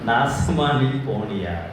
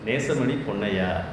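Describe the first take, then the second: First: The name begins with an 'aa' vowel. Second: The name begins with an 'ay' vowel. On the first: The speaker calls it wrong. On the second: The speaker calls it right.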